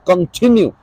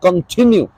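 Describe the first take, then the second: First: The stress is on the second syllable. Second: The stress is on the second syllable.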